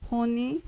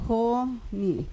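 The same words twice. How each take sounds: First: Said in the usual way. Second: "Honey" split into two drawn-out syllables, softly. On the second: Shown as a demonstration. Teacher asking students for the prominent syllable, "Honey" syllable by syllable. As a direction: softly break "Honey" apart, pausing between syllables. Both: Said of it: "cuál es la sílaba más prominente".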